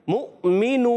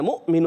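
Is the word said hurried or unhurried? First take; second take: unhurried; hurried. First: The word is said smoothly without rushing. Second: The word is said quickly with a jerk. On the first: The speaker calls it right. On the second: The speaker calls it wrong.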